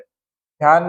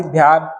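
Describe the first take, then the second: First: ध्यान begun with plain "d": "dyaan"; unaspirated first sound. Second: Said in the usual way. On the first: Shown as a demonstration. Teacher showing a wrong sound, plain "d" in ध्यान. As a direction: drop the breath from the "dh" in ध्यान. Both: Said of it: "नहीं".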